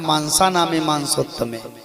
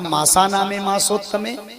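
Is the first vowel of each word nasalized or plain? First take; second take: nasalized; plain. First: The first vowel is nasalized, like maansa. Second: The first vowel is plain, without nasalization. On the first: The speaker calls it wrong. "पंडित लोग पढ़ते क्या है, मांसा नामे मांसोत्तमे" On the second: The speaker calls it right. "लिखा है मासा नामे मासोत्तमे"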